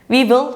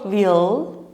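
First: We and will are said as two clear words. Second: It sounds like the single word will.

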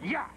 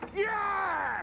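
First: It is said fairly quietly. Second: It is screamed loudly.

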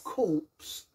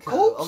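First: The final p and s sounds are pronounced. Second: The final p and s sounds are silent.

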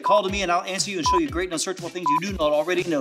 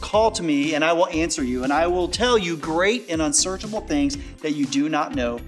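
First: The verse is said very fast. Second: The verse is said more slowly.

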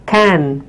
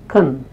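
First: The word has a full, clear vowel. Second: The word has a weak schwa vowel.

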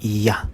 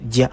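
First: The syllable begins with a Y sound. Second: The syllable begins with a J sound. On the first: The speaker calls it right. "kundi Ya" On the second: The speaker calls it wrong. "hindi po Ja ang bagkas yan"

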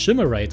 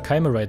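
First: The word is pronounced the German way. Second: The word is pronounced the English way. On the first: "Die spricht es immer alles sehr deutsch aus" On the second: "weil die Engländer Chimerite sagen"

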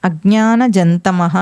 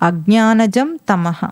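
No difference in how they are said.

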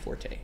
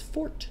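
First: It is said as two syllables. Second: It is said as one syllable. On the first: It means to play loudly. "But in music, it is always forte" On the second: It means someone's strength or talent. "When referring to ability, the correct pronunciation is fort"

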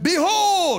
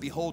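First: The word is said loudly and strongly. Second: The word is said softly and weakly.

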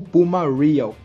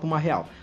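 First: The name is said with an English accent. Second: The name is said with a Portuguese accent. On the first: "caso você queira falar igual gringo" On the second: "mas eu não sou gringo, então vou falar Puma Real"

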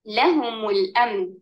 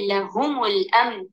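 First: The stress is on the first syllable, la. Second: The stress is on the second syllable, hum. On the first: The speaker calls it right. "अपनी आयत में लाम पर हर नबर डालकर" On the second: The speaker calls it wrong. "गलत नबर जगह पर डालेंगे और हा पर डालकर कहेंगे"

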